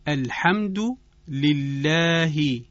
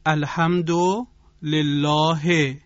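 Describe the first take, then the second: First: It is read with an Arabic accent. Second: It is read with a Persian accent. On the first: "توجه بفرمایید به این مثال" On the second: "ما در فارسی همین عبارت رو به این شکل میخوانیم"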